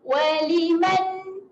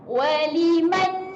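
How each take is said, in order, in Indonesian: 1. Kata ini berakhir bersih pada bunyi n. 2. Kata ini berakhir bersih pada bunyi n.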